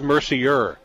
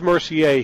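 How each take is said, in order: First: The name is pronounced the English way. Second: The name is pronounced the French way. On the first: This is how the other player's name is said. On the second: This is how the French player's name is said.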